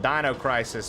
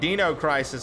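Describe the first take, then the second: First: Dino sounds unlike the Flintstones dinosaur's name. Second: Dino sounds like the Flintstones dinosaur's name. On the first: It feels scary. "maybe it's scary" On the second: It feels fun and lighthearted. "it feels like you're doing something with the Flintstones"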